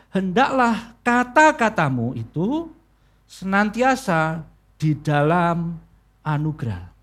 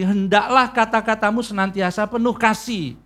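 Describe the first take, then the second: First: "hendaklah kata-katamu itu" drawn out, then "di dalam anugerah" spaced out and lowered; slow right down, weighting "senantiasa di dalam anugerah"; slow emphasis. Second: Said in the usual way. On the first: Shown as a demonstration. Preacher corrects the translation, "di dalam anugerah" slow and deliberate. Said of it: "di dalam bahasa aslinya". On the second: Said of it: "memang perkataannya kan begini".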